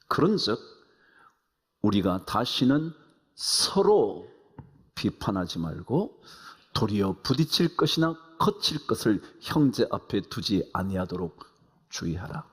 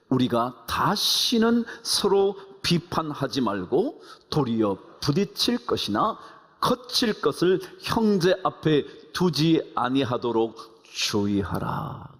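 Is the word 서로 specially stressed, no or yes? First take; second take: yes; no. First: The word 서로 is given special stress. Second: No word is given special stress.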